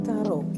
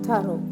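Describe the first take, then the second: No difference in how they are said.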